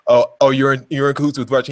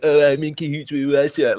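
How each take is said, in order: First: Said in the usual way. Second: A lightly voiced dopey echo of the accusation; mocking dumb echo. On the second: Mimicking the SpongeBob meme, a hint of a dopey voice. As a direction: repeat it back sounding a bit stupid. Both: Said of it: "makes you sound really stupid".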